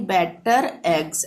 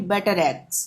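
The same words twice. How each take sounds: First: Better eggs as two separate words with no linking r; wrong demo: break between better and eggs; better eggs said apart, the r not carried over; unlinked wrong version. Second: Better eggs joined, the r running into eggs; better eggs blended with a linking r; linked r. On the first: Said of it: "ये नहीं पढ़ेंगे". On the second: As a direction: say better eggs as one smooth unit, betteregs. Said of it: "एक साथ मिला के पढ़ेंगे". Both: Shown as a demonstration.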